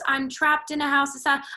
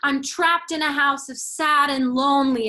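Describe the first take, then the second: First: It is said flat, with no word emphasized. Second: The important words are punctuated with emphasis.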